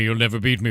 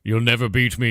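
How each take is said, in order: First: Repeated gloating villain taunt, hammed up; lightly voiced gloating death knight; mock Arthas villain. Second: Hammed-up gloating villain, a touch louder; lightly voiced gloating death knight; mock Arthas villain. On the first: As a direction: rub it in like a cartoon villain. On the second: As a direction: taunt the heroes like a cartoon villain. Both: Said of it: "and he's like".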